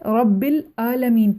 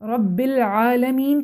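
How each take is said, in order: First: The second word begins with a glottal stop. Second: The second word begins with a pharyngeal sound. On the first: The speaker calls it wrong. "ये major mistake है।" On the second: The speaker calls it right. "आइन को हमज़ा से तब्दील कर दें। रब्बिल आलमीन के बजाय"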